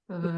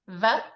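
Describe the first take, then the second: First: The V is made with both lips together. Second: The V is made with teeth on the lip. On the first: "It's like Spanish where your two lips come together, no teeth" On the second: "in English, when we say a V sound, we kind of touch our teeth to our lip, our bottom lip"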